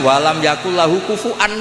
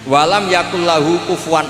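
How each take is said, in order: First: The last word has a glottal stop, no w sound. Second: The last word has a w sound, no glottal stop. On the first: This is the majority reading that keeps the hamzah. "masih pakai hamzah" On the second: This is the minority reading that replaces the hamzah. "Meskipun diakhiri wawu"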